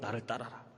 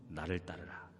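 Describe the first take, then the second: First: It is said in an ordinary, unpolished voice. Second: It is said in a warm, pleasant, resonant voice. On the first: The speaker calls it wrong. "이렇게 하면 또 안 돼" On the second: The speaker calls it right. "좋은 목소리"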